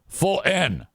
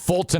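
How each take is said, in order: First: The middle T is dropped entirely. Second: The middle T is strongly pronounced. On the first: "it's definitely not full N" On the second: "I think Fulton is too much"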